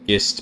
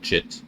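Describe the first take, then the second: First: The word begins with a hard g sound. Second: The word begins with a soft j sound. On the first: "I just pronounce it gist because because Git" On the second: "some people call it Jit"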